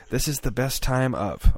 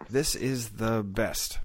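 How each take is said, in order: First: Adding one word, recited; staccato. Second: Slow, word-by-word recital; staccato. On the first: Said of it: "one word at a time". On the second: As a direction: chop it into memorized pieces. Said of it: "I would memorize it word, one word at a time". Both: Retold or imitated.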